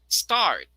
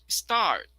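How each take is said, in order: The two takes are said the same way.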